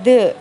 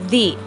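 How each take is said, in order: First: The vowel is a short 'uh' sound. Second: The vowel is a long 'ee' sound. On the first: The next word starts with a consonant sound. "seperti D H E" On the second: The next word starts with a vowel sound. "dibacanya seperti D H I"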